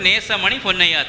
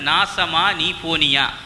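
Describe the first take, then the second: First: The first vowel is an 'e' sound. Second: The first vowel is an 'a' sound. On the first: It is the street's real name. The speaker calls it right. "அந்த ரோட்டின் பேர்" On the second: It sounds like a curse on the listener. The speaker calls it wrong. "ஈக்கு பதிலா ஏ என்றது உச்சரித்து"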